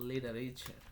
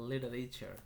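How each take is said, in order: No difference in how they are said.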